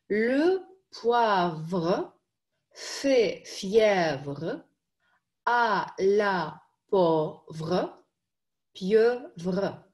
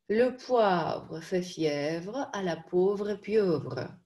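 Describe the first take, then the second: First: It is spoken separately, syllable by syllable. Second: It is spoken as a whole at faster speed. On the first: "Давайте по слогам сначала" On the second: "Побыстрее"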